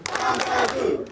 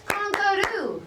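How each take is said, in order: First: Very slow teaching model of "Kangaroo"; slow syllable model. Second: "Kangaroo" said high and clear for the class; teacher modelling "Kangaroo" high; modelled vocabulary word. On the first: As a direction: spell out "Kangaroo" slowly for repeating. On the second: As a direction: introduce "Kangaroo" brightly, pitched high. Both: Shown as a demonstration.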